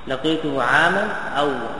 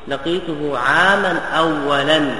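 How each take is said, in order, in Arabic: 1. تنتهي الكلمة الأخيرة بدون صوت n زائد. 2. تنتهي الكلمة الأخيرة بصوت n زائد. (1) "بالمنع من الصرف" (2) "بالتنوين"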